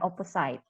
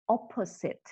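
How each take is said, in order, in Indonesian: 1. Bagian akhirnya terdengar seperti kata 'side'. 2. Bagian akhirnya tidak terdengar seperti 'side'. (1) "bukan opposite" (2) "So you have to pronounce it as opposite"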